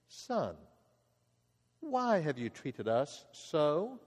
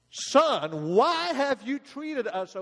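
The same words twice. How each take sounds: First: It is said in a calm, measured tone. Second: It is said in an upset, frantic tone.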